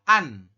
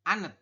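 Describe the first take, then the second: First: The word ends after the n sound. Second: An extra final consonant follows the n sound. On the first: The speaker calls it right. "maka dibacanya adalah an" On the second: The speaker calls it wrong. "bukan anet"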